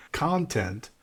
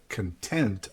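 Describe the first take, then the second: First: "content" stressed on its first syllable, CON-tent. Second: "content" stressed on its last syllable, con-TENT; stress on second syllable. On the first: Teacher showing the changed emphasis, "content" stressed on the first syllable. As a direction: hit CON in "content", leaving the ending light. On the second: Teacher contrasting two words for learners, "content" stressed on the second syllable. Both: Shown as a demonstration. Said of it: "syllable you emphasize".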